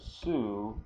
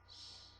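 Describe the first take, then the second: First: The syllable is said with a full vowel. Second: The syllable is said with no vowel. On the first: "the su" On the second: "becomes just a s, like that"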